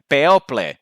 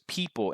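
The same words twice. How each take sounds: First: The word is read with Spanish letter sounds. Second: The word is said with English vowel sounds. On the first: The speaker calls it wrong. "I was still thinking in Spanish" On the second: The speaker calls it right. "you pronounce it as people in English"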